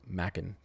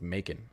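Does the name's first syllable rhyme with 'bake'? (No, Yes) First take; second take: No; Yes. First: The first syllable does not rhyme with bake. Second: The first syllable rhymes with bake. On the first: "Maybe I'm wrong though. Maybe it is M- Macon" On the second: "I think that's how it's pronounced, like bacon"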